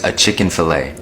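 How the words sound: It is said with an American accent.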